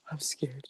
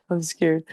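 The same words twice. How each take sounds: First: Nearly whispered and much softer; hushed, frightened admission; quiet fear. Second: Said in the usual way. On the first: Retold or imitated. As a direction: breathe the words out, small and frightened. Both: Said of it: "And I was just like".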